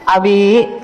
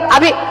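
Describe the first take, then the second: First: It is called softly and gently. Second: It is called sharply and annoyed.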